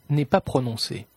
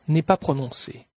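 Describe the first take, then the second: The two takes are said the same way.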